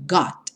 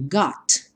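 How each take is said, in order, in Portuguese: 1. O t final fica fechado, quase sem soltar. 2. O t final tem um estalinho leve. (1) "bem fechadinho" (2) "Você até pode dar um estalinho"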